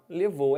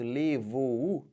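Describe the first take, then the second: First: Said in the usual way. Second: "Levou o" drawn out slowly as le-vo-u, the U on its own; very slow "Levou o" with the final vowel detached; U split off. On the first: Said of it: "é assim". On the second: Shown as a demonstration. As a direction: stretch "Levou o" into three syllables, ending on a separate "u". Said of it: "botar o U separado?".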